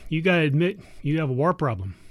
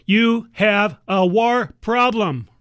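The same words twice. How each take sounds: First: Said in the usual way. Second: "You have a war problem" said slowly, each word hit and louder; emphatic repeat. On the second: Acted. To Uncle Sam, repeating the war problem slowly and emphatically.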